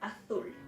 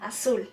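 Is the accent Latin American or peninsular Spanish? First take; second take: peninsular Spanish; Latin American. First: It is said in a peninsular Spanish accent. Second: It is said in a Latin American Spanish accent.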